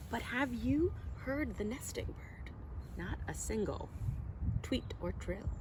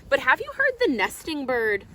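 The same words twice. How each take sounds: First: Much softer, hushed question; hushed storytime question; softer refrain. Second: Louder, calling question to the listeners; louder storytime question; louder refrain. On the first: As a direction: lean in and ask it softly. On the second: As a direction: ask the children out loud. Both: Acted. Refrain read to children.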